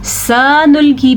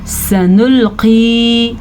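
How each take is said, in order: First: सनुल्की as "saa-nulki", first vowel stretched; सनुल्की with long saa and light k; wrong long sa. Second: सनुल्की with brief "sa" and long final qee; short sa. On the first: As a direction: lengthen the first syllable of सनुल्की by mistake. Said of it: "पढ़ लिया तो गलत हो गया". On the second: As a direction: recite सनुल्की slowly, only the ending stretched. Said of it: "इतना ही पढ़ना है". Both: Shown as a demonstration.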